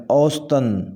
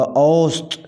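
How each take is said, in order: First: اوسطاً with an added "-an": aus-tan; wrong pronunciation. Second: اوسط ending on t: aust, no "-an"; correct pronunciation. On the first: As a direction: tack a tanween "-an" onto اوسطاً. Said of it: "غلط تلفظ میں". (اوسطاً، آخر میں تنوین کے ساتھ غلط تلفظ) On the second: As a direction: finish اوسط firmly on the t. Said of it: "صحیح تلفظ ہوگا". (اوسط کا صحیح تلفظ، تنوین کے بغیر) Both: Shown as a demonstration.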